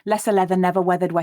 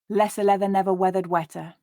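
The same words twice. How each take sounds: First: The phrase is said as fast as possible. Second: The phrase is said at a moderate, natural pace. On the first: "as quickly as we can" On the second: "read it at a more natural pace"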